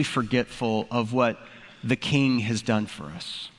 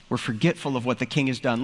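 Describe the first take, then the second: First: Slower and lower, leaning on each word; slow it right down to drive the point home; slowed emphasis. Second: Said in the usual way. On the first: Shown as a demonstration. Pastor stressing to his congregation how forgetful we are, slowed emphasis.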